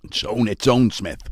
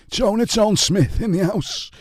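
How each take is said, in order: First: Said in the usual way. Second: Higher, slow hype-man shout-out; announcer hype. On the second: Real, not acted. Host hypes viewer Joan's arrival, slow MC-style call. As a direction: announce her like a club MC. Hyped greeting of viewer Joan.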